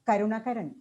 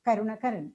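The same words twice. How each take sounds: No difference in how they are said.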